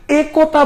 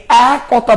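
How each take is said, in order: First: First একতা with closed "e", as "e kota"; একতা opening on a narrow "e"; spelling pronunciation. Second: Second একতা with open "ae", as "ae kota"; একতা opening on a wide, drawn-out "ae"; everyday pronunciation. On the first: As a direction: slowly say একতা with pure "e". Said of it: "একতা বলি নাকি একতা বলি". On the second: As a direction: slowly open the first vowel of একতা to "ae". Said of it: "আমরা বলি একতা". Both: Shown as a demonstration.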